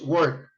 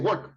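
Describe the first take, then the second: First: The vowel is said long. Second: The vowel is said short. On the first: The speaker calls it right. "it's work... the sound is a little long" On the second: The speaker calls it wrong. "You don't say work, no"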